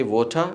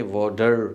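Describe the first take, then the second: First: "water" with a crisp British t and no r at the end. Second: American water. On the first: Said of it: "British pronounce से". (British लहजे में "water") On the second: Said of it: "American pronounce से". (American लहजे में "water") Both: Shown as a demonstration.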